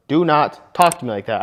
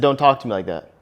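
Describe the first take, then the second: First: Firm command. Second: Firm calm command. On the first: Shown as a demonstration. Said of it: "I just firmly told her". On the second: Retold or imitated. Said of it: "I didn't yell at her".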